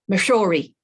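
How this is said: Said in a Western or Northern accent, O vowel kept. The speaker calls it right. "as you would in the West or the North"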